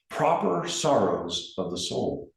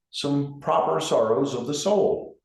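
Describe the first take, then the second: First: "proper" leaned on and drawn out, the phrase slowed; slow down and press hard on "proper", then let "sorrows of the soul" fall; stress on proper. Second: Said in the usual way. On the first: Shown as a demonstration. Grief counselor emphasizing a quoted phrase to mourners, stress on "proper". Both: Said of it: "and I emphasize the word proper".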